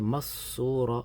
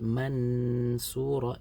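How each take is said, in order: First: The n is dropped entirely between syllables. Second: The n is pronounced fully and clearly. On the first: "don't pronounce the noon, I just go straight from the mim to the sad, it becomes idgham" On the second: "If I say mansura, it becomes idhar"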